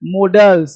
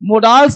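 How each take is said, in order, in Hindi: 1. दूसरे अक्षर में छोटा, हल्का स्वर है। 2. दूसरे अक्षर में लंबा 'aa' स्वर है। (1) "ये क्या आ नहीं है" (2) "मोडाल्स नहीं"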